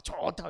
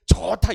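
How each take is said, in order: First: Said in the usual way. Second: 좋다 blurted out loud and high with joy; loud delighted good. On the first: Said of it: "막". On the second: Retold or imitated. Someone at work exclaiming 좋다 loudly in delight. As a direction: shout 좋다 as if thrilled. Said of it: "어떤 분이 이러더라고요".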